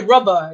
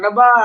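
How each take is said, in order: First: It is said in the speaker's own accent. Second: It is said imitating a Gujarati English accent.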